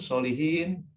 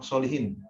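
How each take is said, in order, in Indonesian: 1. Vokal terakhirnya panjang, akhiran -iin yang dipanjangkan. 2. Vokal terakhirnya pendek, akhiran -in yang cepat. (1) "kalau bacanya panjang" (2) "dibaca isim mufrad tapi tanwin kasroh"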